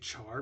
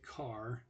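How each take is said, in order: First: It begins with a ch sound, like char. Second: It begins with a k sound, like car. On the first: "A lot of people say char because that's what it looks like" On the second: "Other people say car"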